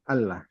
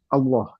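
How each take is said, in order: First: It is said the Pakistani way. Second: It is said the Indonesian way. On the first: "Kalau di Pakistan gitu tuh Allah" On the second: "Kita kan Allah gitu ya"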